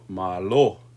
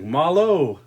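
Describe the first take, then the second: First: The final vowel is a pure, steady O. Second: The final vowel glides like an English oh. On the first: The speaker calls it right. "no, no, malo" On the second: The speaker calls it wrong. "they're like malo"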